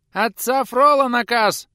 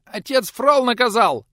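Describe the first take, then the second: First: Put-on much higher, louder, slow shrieking boy; squeaky yell. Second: Put-on much higher, louder squeaky boy voice; squeaked. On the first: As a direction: shout it from the yard. Youth yelling from yard. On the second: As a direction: squeak it out in panic. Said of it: "успел пискнуть тот". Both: A narrator's reading.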